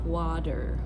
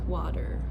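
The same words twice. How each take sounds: First: Water said with a full hard D; real D. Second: Water with a light quick flap. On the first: Teacher showing the wrong heavy D in water. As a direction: overdo the D in water as a true D. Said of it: "it's not water". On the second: Teacher showing the right flapped T in water. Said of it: "it's a quick D sound". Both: Shown as a demonstration.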